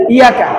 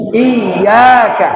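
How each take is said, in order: First: Iyaka said quickly as light "i-ya-ka"; short, undoubled y in iyaka; unstressed ya. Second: Iyaka slowly as "iy-yaa-ka"; pressed double y. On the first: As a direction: skim through iyaka without pressing the y. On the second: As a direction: lean hard on the y of iyaka. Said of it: "agak ditekan". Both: Shown as a demonstration.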